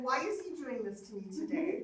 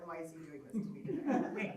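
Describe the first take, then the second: First: Higher-pitched complaint through a laugh; mock exasperation. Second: Understated, easygoing mock complaint; mild resignation. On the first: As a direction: playfully bemoan your bad luck. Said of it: "now I'm not cussing". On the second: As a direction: wonder it calmly, without any cussing. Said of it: "now I'm not cussing in the car anymore".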